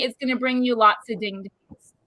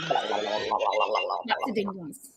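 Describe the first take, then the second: First: Said in the usual way. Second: Slow, low, drawn-out echo; deep slow repeat. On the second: Acted. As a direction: drop very low and drag it out.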